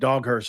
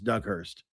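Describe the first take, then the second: First: The first part sounds like the word 'dog'. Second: The first part sounds like the name 'Doug'. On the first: The speaker calls it wrong. "I said Doghurst" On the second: The speaker calls it right. "it's Doug Hurst"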